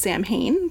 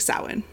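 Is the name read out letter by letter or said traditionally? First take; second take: letter by letter; traditionally. First: Each written letter of the name is sounded out. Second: The name is said with its traditional sounds. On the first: The speaker calls it wrong. "If I were to phonetically pronounce it, it comes out as Samhain" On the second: The speaker calls it right. "But it's actually Samhain"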